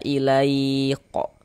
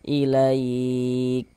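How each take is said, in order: First: The final k bounces with a vowel after it. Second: The final k ends with flowing breath. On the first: The speaker calls it wrong. "kalau kita baca ilaiqo gitu mantul jadinya" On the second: The speaker calls it right. "Sekarang ini dia mengalir, mengalir saja nafasnya"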